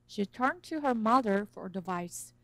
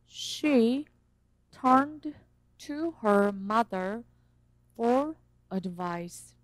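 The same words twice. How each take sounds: First: The d in turned blends away into to. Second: The d in turned is clearly pronounced. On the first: "연음이 돼요. 그래서 앞에 있는 the 발음이 안 들릴 수가 있어요. 이렇게 들릴 수가 있어요" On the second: "저는 천천히 읽지만"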